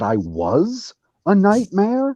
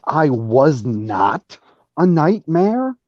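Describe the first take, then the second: First: "was" leaned on with a rising lift; "was" stressed and lifted in disbelief. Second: "not" leaned on, drawn out; slow down and land hard on "not"; "not" stretched with a questioning lift; stress on NOT. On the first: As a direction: punch "was" against the denial. Contrasts own belief with parents'. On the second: Contrasts parents' view with own. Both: Retold or imitated.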